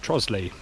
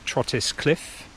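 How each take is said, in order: First: The name is said in a shortened local form. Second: The name is said just as it is spelt. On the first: The speaker calls it right. "It's pronounced Trosley. It's one of those weird Kentish pronunciations" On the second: The speaker calls it wrong. "not Trottis Cliff, how it's spelt"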